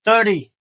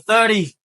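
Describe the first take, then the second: First: The middle consonant sounds like a d. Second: The middle consonant sounds like a d.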